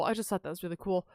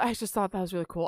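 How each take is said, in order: First: Softer, murmured repeat to herself; quiet repeat. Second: Said in the usual way. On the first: Real, not acted. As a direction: drop the volume and say it again for yourself.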